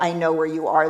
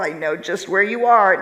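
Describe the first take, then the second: First: It is said coldly and dismissively. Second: It is said warmly and with compassion.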